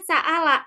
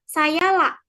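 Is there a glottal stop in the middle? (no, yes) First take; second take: yes; no. First: A clear glottal stop is in the middle. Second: A y sound replaces the glottal stop. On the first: This is how the Quraysh dialect says it. "hamzahnya ini jelas jadinya sa'ala" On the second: This is how another dialect says it. "kalau sa'ala ini dibacanya sayala"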